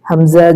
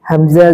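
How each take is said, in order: No difference in how they are said.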